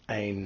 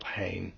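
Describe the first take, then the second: First: "ein" begun on the vowel, no h sound; soft breathing. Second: "hein" begun with an audible h; hard breathing. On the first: Teacher showing students the soft breathing, "ein" without an h. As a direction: say "ein" with a smooth h-less onset. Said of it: "it's a soft breathing". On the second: Teacher contrasting hard with soft breathing, "hein" with an h. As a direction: put a puff of h before the vowel in "hein". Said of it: "difference between a hard and soft breathing". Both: Shown as a demonstration.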